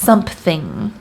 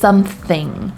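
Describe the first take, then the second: First: A p sound is added before 'thing'. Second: It is said with no p sound before 'thing'. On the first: "We actually add a P. So it would it would sound more like something" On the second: "we never really say something. Like this is something"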